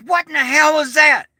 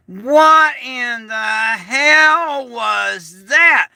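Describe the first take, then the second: First: Higher, quicker baffled question; a neighbour blurting it out. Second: Very slow, drawn-out baffled question; baffled neighbours. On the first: Retelling neighbours after the blast, high baffled blurt. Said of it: "all my neighbors are out going". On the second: Quoting neighbours in the yard, slow stunned disbelief. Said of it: "everybody ... standing out in the yard going". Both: Retold or imitated.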